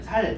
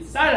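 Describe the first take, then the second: First: The word begins with a plain 's' sound. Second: The word begins with a tense 's' sound. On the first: "경상도 사람들이 ... 살 이렇게 하는 거" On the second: "쌀 하면"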